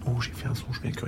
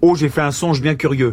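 First: It is said quietly. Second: It is said loudly.

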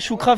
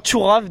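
First: A k sound is heard in the middle. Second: No k sound is heard in the middle. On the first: The speaker calls it wrong. "c'est pas choukrave" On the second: The speaker calls it right. "c'est tchourave déjà"

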